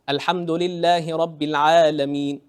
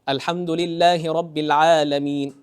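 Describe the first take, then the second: Both takes have the same delivery.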